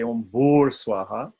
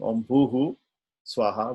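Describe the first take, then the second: First: The first word ends in an r sound. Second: The first word ends in a breathy h sound. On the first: "the Visarga changes to an R" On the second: "instead of saying"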